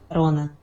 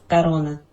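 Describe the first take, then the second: Both takes have the same delivery.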